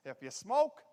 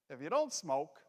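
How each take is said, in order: First: "smoke" lifted with a rising end; rising "smoke" as a setup; stress on smoke. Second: "don't" leaned on with a falling tune; falling, stressed "don't". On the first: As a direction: set up the joke by letting "smoke" rise. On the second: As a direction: punch "don't" to flip the contrast. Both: Shown as a demonstration. Joke: smokers versus non-smokers.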